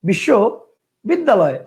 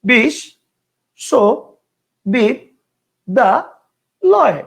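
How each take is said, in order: First: The word is broken into two separate chunks. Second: The word is broken into five separate chunks. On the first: "কয়টা হলো? দুইটা।" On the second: "কেউ উচ্চারণ করতো ... কয়টা হলো? পাঁচটা।"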